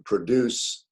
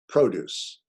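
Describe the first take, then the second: First: The stress is on the second syllable. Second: The stress is on the first syllable. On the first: It means to make or create. "to produce, to create" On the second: It means fruits and vegetables. "fruits, vegetables"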